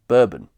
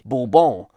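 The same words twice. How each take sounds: First: The word is pronounced with English sounds. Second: The word is pronounced with French sounds. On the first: It matches the usual name of the whiskey. "the more typical way we do today, consistent with the American whiskey" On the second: It follows the name of the royal house. "the French way"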